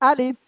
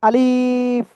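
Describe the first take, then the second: First: The vowel is kept short, not drawn out. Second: The vowel is drawn out longer. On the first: The speaker calls it right. "Just এক আলিফও না টেনে" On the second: The speaker calls it wrong. "তাহলে তার কিন্তু ভুল হয়ে যাবে।"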